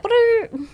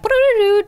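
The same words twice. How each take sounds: First: High buzzing lip-trill fart sound; fart noise. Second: High, loud buzzing raspberry; loud fart noise. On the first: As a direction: blow a raspberry like a fart. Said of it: "you know how some farts are like". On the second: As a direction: blast out a fart sound with the lips. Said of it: "sometimes the boomers will make a sound". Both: Shown as a demonstration.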